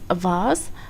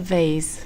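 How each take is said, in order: First: It is said with a British pronunciation. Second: It is said with an American pronunciation. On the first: "in British English, the pronunciation is vase" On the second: "but in American English, it is a vase"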